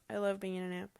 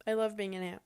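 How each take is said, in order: Both takes have the same delivery.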